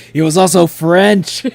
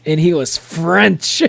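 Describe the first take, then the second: First: He was also French, said loud and a bit slow; loud joking repeat. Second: And he was French, slow with he leaned on hard; mock French stress. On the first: Streamer repeating the joke louder to chat, mock loud. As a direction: boom out the line as a joke. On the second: Streamer joking to chat about Don Quixote, slow and stressed. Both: Shown as a demonstration. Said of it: "It's just how to say it like that".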